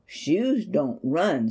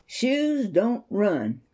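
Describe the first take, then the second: First: Slow, stress on shoes; mother gently setting her son straight; gentle correction. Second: Slow, weighted title line; title read slowly. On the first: Acted. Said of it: "she said". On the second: Shown as a demonstration. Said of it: "shoes don't run, Stevie".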